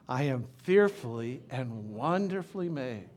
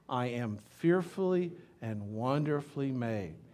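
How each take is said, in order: First: It is said with real conviction. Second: It is said plainly, without conviction.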